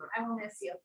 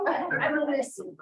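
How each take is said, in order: First: Choked up. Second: Louder and higher, still shaken; "I will miss you" said louder and higher, swelling with emotion; emotional. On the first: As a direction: let the goodbye break into a sob. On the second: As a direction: push the goodbye out with feeling. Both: Real, not acted. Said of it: "I'm being so emotional".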